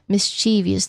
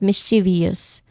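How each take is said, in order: First: The word is said with three syllables. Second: The word is said with four syllables. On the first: The speaker calls it right. "three syllables" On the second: The speaker calls it wrong. "not mischievous"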